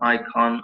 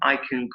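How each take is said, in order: First: The word 'can' has an O-like vowel. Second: The word 'can' has a short reduced vowel. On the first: The speaker calls it wrong. "It's like you're saying con, I con, or something like that with an O kind of sound there" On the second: The speaker calls it right. "it should be kun"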